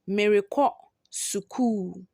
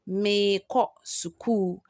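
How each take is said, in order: First: The first word keeps its r syllable. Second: The r syllable is dropped, leaving a long vowel. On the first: "number four says" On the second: "when you are mentioning or pronouncing it, you will say"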